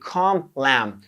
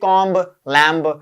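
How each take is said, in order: First: The words end without any b sound. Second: The words end with an audible b sound. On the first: The speaker calls it right. "That's how you speak" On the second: The speaker calls it wrong. "You don't say"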